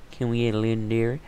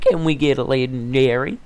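First: Quick repeat. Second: Loud, high hopeful call; excited. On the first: Gamer repeating the question to himself, quick and plain. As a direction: rattle it off fast and even. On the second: Gamer opening a chest for viewers, loud excited hope. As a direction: pump up the viewers. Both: Real, not acted.

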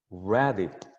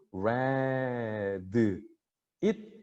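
First: "read it" run together as reh-dit; linked words. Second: "read it" broken apart as re-deu, it; separated words. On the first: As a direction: link the d of "read" straight into "it". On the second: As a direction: draw out "read", add eu after the d, then a detached "it". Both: Shown as a demonstration. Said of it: "따로따로 발음하는 게 아니라".

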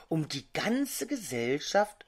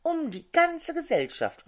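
First: GANZE lifted in a questioning rise; questioning echo. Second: "ganze" high, then falling, voiced; high confirming echo falling away after "ganze"; mock whispered echo. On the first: Grass blades echoing the hazel bush, questioningly. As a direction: ask softly, tune climbing on "ganze". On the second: Grass blades echoing one another, high and falling. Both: A narrator's reading. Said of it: "flüsterten die Grashalme".

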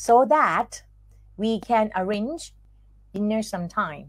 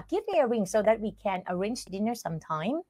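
First: Careful dictation pace, one chunk at a time; slowed-down chunked reading. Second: Quicker, softer take without breaks between phrases; quick connected reading. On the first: Teacher slowing the sentence down for students to repeat, in chunks. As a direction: break it into short phrases with long pauses. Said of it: "ลองพูดดู เอาพูดเร็วไป". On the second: Teacher reading the whole example sentence for students, quick and connected. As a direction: run the whole sentence together in one breath. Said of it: "เอาพูดเร็วไป". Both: Shown as a demonstration.

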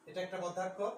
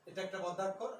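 Both takes have the same delivery.

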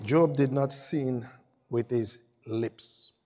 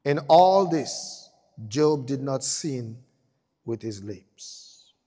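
First: Slow, softer, weighty reading; solemn scripture reading. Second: Solemn scripture reading. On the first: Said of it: "repeated slow read". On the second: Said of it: "solemn slow read". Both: Acted. Preacher reading Job's verdict slowly and gravely. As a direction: let each word land slowly.

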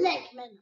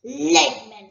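First: Said in the usual way. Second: Loud, scornful bark of Lakemen; angry dragon. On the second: Acted. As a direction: spit out Lakemen with contempt. Dragon spits the name.

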